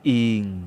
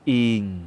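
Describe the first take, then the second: First: The syllable is said on a low tone. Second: The same.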